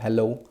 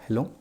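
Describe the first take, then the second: First: It is said loudly. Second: It is said softly.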